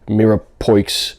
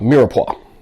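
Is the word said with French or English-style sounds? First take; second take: English; French. First: The word is said with English letter sounds. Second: The word is said with French-style sounds. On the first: The speaker calls it wrong. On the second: The speaker calls it right.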